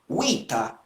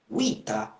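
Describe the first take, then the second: No difference in how they are said.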